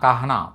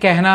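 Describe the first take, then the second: First: The first vowel sounds like 'a'. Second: The first vowel sounds like 'e'. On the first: It is read just as it is spelled. "మామూలుగా అయితే కహనా" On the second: This is how native speakers actually say it. "Hindi people దీన్ని కెహనా అని పలుకుతుంటారు"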